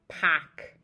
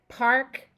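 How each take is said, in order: First: The R in park is dropped. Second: The R in park is pronounced.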